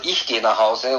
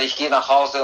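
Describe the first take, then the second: First: The stress is on "Ich". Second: The stress is on "Hause".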